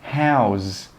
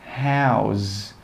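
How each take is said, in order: First: The two words are joined into one. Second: The two words are joined into one.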